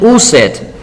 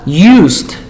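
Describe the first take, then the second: First: The ending is said as an extra syllable. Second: The ending adds no extra syllable. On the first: The speaker calls it wrong. "No es used" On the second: The speaker calls it right. "Si ves el verbo usar, used"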